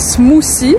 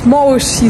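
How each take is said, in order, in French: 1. Il est prononcé avec l'accent français du locuteur. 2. Il est prononcé en imitant la prononciation des locaux. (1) "moi je dis smoothie" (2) "ils disent smoshy"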